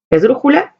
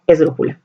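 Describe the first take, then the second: First: Esdrújula asked with a high rising tune. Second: Esdrújula answered lower, with a falling tune. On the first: Teacher calls out esdrújula with a rising tune. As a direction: lift esdrújula up at the end like a question. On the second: Teacher confirms esdrújula with a low falling tune. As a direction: settle esdrújula down as the final answer. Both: Shown as a demonstration. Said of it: "naming the stress type aloud".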